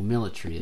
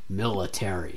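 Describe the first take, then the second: First: It is said in an Australian accent. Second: It is said in an American accent. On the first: "as we say in Australia" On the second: "I think Americans say military"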